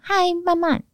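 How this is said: The greeting is said brightly and with energy. The speaker is enthusiastic. "嗨慢慢惊叹号"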